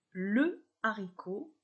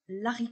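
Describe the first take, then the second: First: The vowel of le is kept before haricot. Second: The vowel of le is dropped before haricot. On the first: The speaker calls it right. "je dis le haricot" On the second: The speaker calls it wrong. "et non l'haricot"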